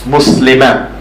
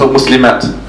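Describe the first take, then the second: First: The word ends on a vowel, no final t. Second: The word ends with a clear t sound. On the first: The speaker calls it right. "in this ta marbuta, we don't pronounce this. It's Muslima" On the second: The speaker calls it wrong. "We don't say Muslimat"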